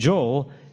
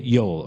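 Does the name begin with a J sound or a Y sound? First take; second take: J sound; Y sound. First: The name begins with a J sound. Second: The name begins with a Y sound. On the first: This is the English form of the name. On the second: This is the original form of the name.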